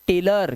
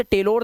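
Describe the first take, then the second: First: टेलर ending in a schwa "-ler"; correct pronunciation. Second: टेलर ending in a full "-lor"; wrong pronunciation. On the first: Teacher showing the rule, टेलर with short "a". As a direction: say टेलर as "tay-lur". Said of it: "इसलिए इसे पढ़ते हैं टेलर". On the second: Teacher warning pupils, टेलर misread with an o. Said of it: "अब इसे टेलर नहीं पढ़ते". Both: Shown as a demonstration.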